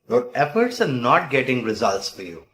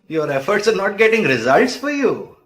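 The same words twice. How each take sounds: First: It is said in a plain, neutral tone. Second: It is said in a playful, teasing tone.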